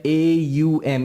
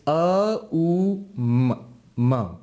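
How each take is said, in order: First: A U M spelt out as English letters; English letter names. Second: A U M as drawn-out sounds "ah, oo, mm"; separate Sanskrit sounds. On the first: Teacher quoting the English spelling of the syllable, as letter names. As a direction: say "A U M" letter by letter, ay-you-em. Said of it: "It's not A U M". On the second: Teacher showing students the true sounds, A U M slowly intoned as ah-oo-mm. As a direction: hold each sound of A U M slowly, never as letter names. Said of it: "It's not A U M, it's". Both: Shown as a demonstration.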